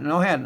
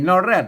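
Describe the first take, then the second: First: The second syllable begins with an h sound. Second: The second syllable begins with an r sound. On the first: "เปิ้นบ่แรดนะครับ นอแฮด" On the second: "มันมีนอแรดนะครับ"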